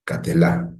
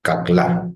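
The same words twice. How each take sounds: First: "Catelá" with a brief e sounded after the t, three syllables; vocal shva reading. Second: "Caclá" with no vowel between c and l, two syllables; silent shva reading. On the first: Teacher reads the word to students with the shva voiced as a short e. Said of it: "lo que tendría sería esto, como una E breve". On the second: Teacher reads the word to students with the shva silent. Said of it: "tendría lo siguiente". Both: Shown as a demonstration.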